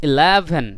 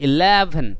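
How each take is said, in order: Both takes have the same delivery.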